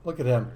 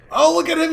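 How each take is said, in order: First: Said in the usual way. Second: Much higher and louder, thrilled; delighted squeal. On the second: Real, not acted. Gushing to viewers over the dancing mob, excited squeal. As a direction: squeal with delight at a cute sight. Mob doing a little dance.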